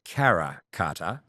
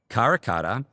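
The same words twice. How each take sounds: First: The name is said without an Australian accent. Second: The name is said in an Australian accent. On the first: The speaker calls it right. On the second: The speaker calls it wrong.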